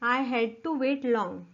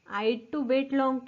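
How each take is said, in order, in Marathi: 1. I आणि had हे दोन वेगळे शब्द म्हणून म्हटले जातात. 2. I had एका अक्षरापर्यंत आकुंचित होते.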